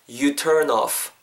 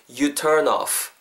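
No difference in how they are said.

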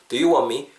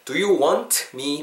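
First: The t sound in want is dropped. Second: The t sound in want is clearly pronounced. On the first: "자연스럽게 발음될 때 want me에서 T 사운드가 탈락되고" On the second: "그것도 되는데"

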